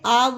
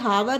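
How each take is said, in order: First: The word begins with a vowel sound. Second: The word begins with an h sound. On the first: The speaker calls it right. "इसे पढ़ना है आवर" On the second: The speaker calls it wrong. "इसे हावर नहीं पढ़ना है"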